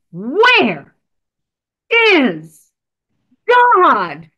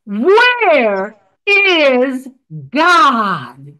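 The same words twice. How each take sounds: First: Booming final demand. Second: A big man's stern, louder question; booming stern clergyman. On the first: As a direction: lean in and hammer the last time. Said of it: "for the final time, the minister leaned in". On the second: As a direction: loom over the boy and demand it sternly. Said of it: "huge man with a booming voice". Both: Acted.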